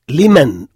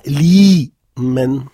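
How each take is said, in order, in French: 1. Il se dit comme un seul mot. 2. Il est divisé en deux parties distinctes. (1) "en un seul mot" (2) "c'est pas li, men"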